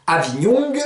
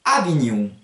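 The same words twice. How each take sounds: First: AVIGNON ending -oung, hard g sounded; G d'appui. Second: AVIGNON ending in nasal -oun, no g; G enlevé. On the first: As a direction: close AVIGNON on an audible g. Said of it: "que vous allez mettre pour vous appuyer". (« Avignon » dit « Avignoung », g prononcé) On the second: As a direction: let AVIGNON fade into the nose, g dropped. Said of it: "vous enlevez le G". (« Avignon » dit « Avignoun », sans g) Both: Shown as a demonstration.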